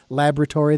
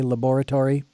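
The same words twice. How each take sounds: First: It is said with an American accent. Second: It is said with a British accent.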